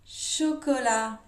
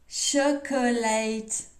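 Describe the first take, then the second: First: It is pronounced the French way. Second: It is pronounced the English way.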